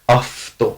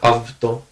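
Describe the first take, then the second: First: The consonant after the first vowel is voiceless f. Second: The consonant after the first vowel is voiced v. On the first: The speaker calls it right. "afto, not avto" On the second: The speaker calls it wrong. "not avto"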